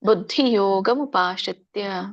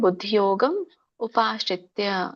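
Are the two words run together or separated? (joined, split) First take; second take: joined; split. First: The two words run together without a break. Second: The two words are said separately with a break. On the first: "ಕೂಡಿ ಹೇಳಿದ್ರೆ ಒಳ್ಳೇದು" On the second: "ಕೂಡಿ ಹೇಳಿಕ್ ಆಗ್ಲಿಲ್ಲ ಅಂದ್ರೆ"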